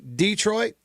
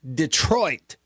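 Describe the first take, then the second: First: The stress is on the first syllable. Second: The stress is on the second syllable.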